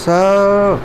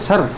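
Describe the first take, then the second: First: The vowel is a long English 'er'. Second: The vowel is a short Hindi-style 'uh'. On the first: The speaker calls it right. "लेकिन English में क्या बोलेंगे" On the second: The speaker calls it wrong. "हम कह देते हैं सर"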